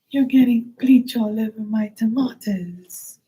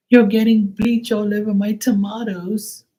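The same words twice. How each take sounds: First: High, whiny mock woman; mocking the neighbor. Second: High, whiny mock woman; shrill-sounding whine mimicking the tomato lady; mocking the neighbor. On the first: Repeating the neighbor's complaint, high and whiny. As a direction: squeal it high like she did. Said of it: "repeats neighbor's line". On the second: Retelling the neighbor's complaint, in a high whiny mock voice. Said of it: "and she was like".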